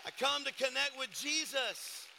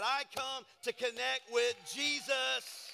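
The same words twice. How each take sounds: First: Louder, higher repeated proclamation; preaching emphasis. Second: Louder, slower, higher proclamation; preaching emphasis. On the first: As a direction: say it again with full preaching force. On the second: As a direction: drive it home from the pulpit. Repeated preaching line, slow emphasis. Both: Real, not acted.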